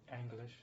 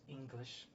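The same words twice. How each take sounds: First: "English" opening on an open "ang" sound; "English" with a broadened first vowel; other accented pronunciation. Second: Said in the usual way. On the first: Shown as a demonstration. Contrasts two ways of saying English.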